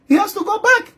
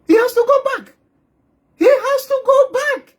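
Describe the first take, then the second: First: Mock official insisting. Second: High mock official. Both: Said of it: "The government here will say".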